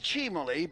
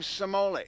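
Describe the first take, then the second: First: The name is said with its original pronunciation. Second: The name is said with an anglicized pronunciation. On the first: This is the name's true pronunciation. The speaker calls it right. "I can guarantee you it's Cimoli" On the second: This is how people commonly said it. The speaker calls it wrong. "everyone pronounced his name Cimoli"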